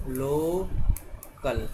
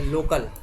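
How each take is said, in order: First: local stretched out very slowly, syllable by syllable; teacher slowly sounding out local; slow demo. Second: Said in the usual way. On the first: Shown as a demonstration. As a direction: draw out local as lo-kal for the class. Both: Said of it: "जैसे हम बोलें local".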